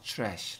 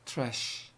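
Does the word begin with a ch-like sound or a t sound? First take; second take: ch; t. First: The word starts with a ch-like sound. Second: The word starts with a plain t sound. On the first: The speaker calls it right. "추 소리가 나죠. trash 이렇게" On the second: The speaker calls it wrong. "근데 트래쉬보다는 추 소리가 나지 않을까 싶어요"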